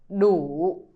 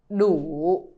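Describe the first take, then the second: The two takes are said the same way.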